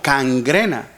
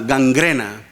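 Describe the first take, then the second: First: The word begins with a voiceless k sound. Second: The word begins with a voiced g sound. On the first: "Algunos a veces yo lo escuchaba así como cangrena" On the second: "La palabra ah, gangrena"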